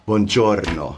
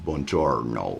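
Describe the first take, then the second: First: It is said with an Italian pronunciation. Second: It is said with an American pronunciation. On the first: The speaker calls it right. "I say" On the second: The speaker calls it wrong. "I don't say it"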